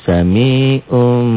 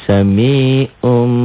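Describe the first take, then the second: The two takes are said the same way.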